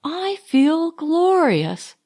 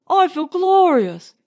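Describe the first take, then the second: First: Higher, slow, savoured exclamation; cried out. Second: Higher and louder, ringing exclamation; exuberant. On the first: Marjorie echoing Leonard on the beach, savouring it. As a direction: stretch out the joy. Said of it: "cried Marjorie". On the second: Leonard exulting to Marjorie on the beach, ringing. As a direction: shout the joy out. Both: A narrator's reading.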